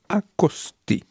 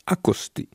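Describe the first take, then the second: First: Said in the usual way. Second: Whispered "accosté", soft and breathy. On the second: Shown as a demonstration. Repeats word, then whispers it.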